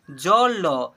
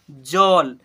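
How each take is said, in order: First: "ज, ल" as two separate drawn-out letters; spelled letter by letter. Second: "जल" as one syllable, ending on ल; blended into one word. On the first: Teacher sounding out letters for pupils, spelled out. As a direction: say "ज, ल" slowly, each with its own vowel. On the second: Teacher showing pupils the joined reading, blended. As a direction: join "जल" up, loud and low. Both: Shown as a demonstration. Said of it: "तो इसे जल पढ़ेंगे".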